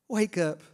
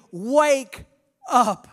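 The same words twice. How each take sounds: First: Said in the usual way. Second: Preacher voicing Jesus, calling loud. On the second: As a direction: Wake up thrown out louder, each word hit. Jesus voiced urging the church.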